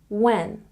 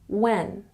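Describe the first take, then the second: The two takes are said the same way.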